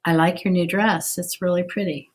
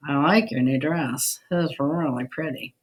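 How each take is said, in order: First: Sincere. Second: Mock a friend's dress with a sour, dry compliment; sarcastic. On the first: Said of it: "which one I was being sincere". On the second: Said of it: "which one I was being sarcastic". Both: Shown as a demonstration.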